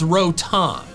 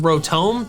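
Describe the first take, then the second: First: The last syllable sounds like 'tom'. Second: The last syllable sounds like 'tome'. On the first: The speaker calls it right. "The official pronunciation is Rotom" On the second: The speaker calls it wrong. "which is Tome, which was what I'm saying"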